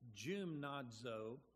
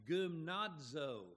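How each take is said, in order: First: The word begins with a soft G sound. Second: The word begins with a hard G sound. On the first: "to a soft G" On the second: "Let me change that from a hard G"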